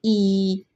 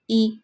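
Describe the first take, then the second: First: Ee held long and level; drawn-out ee for teaching; long ee vowel. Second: Ee cut short; brief ee, not lengthened; short ee vowel. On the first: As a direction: stretch out the ee sound. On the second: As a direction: say the ee sound briefly. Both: Shown as a demonstration. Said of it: "इसको हमने लंबा करना है".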